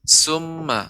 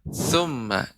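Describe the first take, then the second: First: The word begins with a hissing 's' sound. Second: The word begins with a lisped 'th' sound. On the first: The speaker calls it wrong. "jangan sampai menjadi huruf sin. Summa bukan" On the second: The speaker calls it right. "tapi summa, tha"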